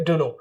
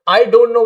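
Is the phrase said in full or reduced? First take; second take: reduced; full. First: The words are squeezed into a short form. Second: Each word is said fully and separately. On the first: "आप उसके क्या बोलेंगे" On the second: "जैसे आई डोंट नो बोलते थे"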